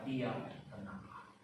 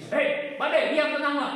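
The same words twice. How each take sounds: First: Soft, low, slow, quiet order; Jesus stilling the storm, once, quiet and slow; calm command. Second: High, loud, repeated yell at the storm; mock yelling at a stubborn storm, loud and higher; mock shouting. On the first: Retold or imitated. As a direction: say it once, gently and certain. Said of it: "dengan tenang dan tidak diulang". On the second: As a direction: bark at the storm like it won't listen. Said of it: "Ada diulang-ulang?".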